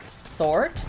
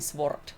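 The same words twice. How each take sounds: First: The w sound is left out. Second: The w sound is clearly pronounced. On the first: "English way would be leaving letters out of it" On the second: "if we would pronounce it the Finnish way"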